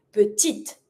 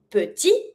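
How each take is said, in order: First: Petite closed with a clear T; French "petite" as puh-teet; sounded final T. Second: Petit ending on an open ee; French "petit" as puh-tee; silent final T. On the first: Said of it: "I'm gonna pronounce my last T". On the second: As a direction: leave the T off "petit". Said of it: "you have the difference between". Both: Shown as a demonstration.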